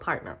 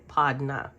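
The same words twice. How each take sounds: First: It is said in a standard accent. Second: It is said in a Jamaican accent.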